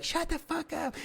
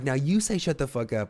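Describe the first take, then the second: First: High falsetto crowd shout, held back in volume; mock shout in a thin high voice; mimicked crowd yell. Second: Said in the usual way. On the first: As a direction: imitate a whole room yelling, squeaky high. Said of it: "they'd be like". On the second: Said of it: "And I'm like".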